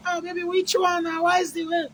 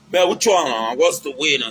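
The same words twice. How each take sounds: First: Put-on much higher and softer, cooing at baby; mock-tender boyfriend voice, high and soft; sweet-talking lover. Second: Said in the usual way. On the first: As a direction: coax her in a high, soft, sugary voice. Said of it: "You can't say". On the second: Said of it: "Or maybe you dey say".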